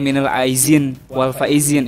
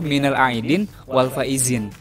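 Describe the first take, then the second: First: The second word has a z sound in the middle. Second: The second word has a d sound in the middle. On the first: The speaker calls it wrong. "bukan ... itu keliru" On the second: The speaker calls it right. "yang betul itu"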